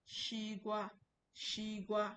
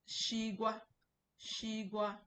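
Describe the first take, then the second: The two takes are said the same way.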